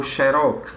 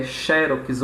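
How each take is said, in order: First: "xerox" stressed on the final syllable, xe-RÓX; "xerox" with the ROX punched; stress on last syllable. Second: "xerox" stressed on the first syllable, XÉ-rox; "xerox" with an open, stressed XÉ. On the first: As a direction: say "xerox" as xe-RÓX, weight at the end. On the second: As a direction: say "xerox" as XÉ-rox, weight up front. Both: Shown as a demonstration. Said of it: "esse conflito, né? Se é xerox ou xerox".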